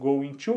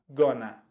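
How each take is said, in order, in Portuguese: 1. Ela é falada como duas palavras completas. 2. Ela é falada junta, como 'gonna'.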